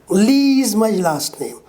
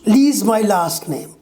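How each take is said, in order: Both takes have the same delivery.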